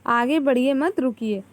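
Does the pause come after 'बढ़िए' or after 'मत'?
after मत. The pause comes after 'मत'.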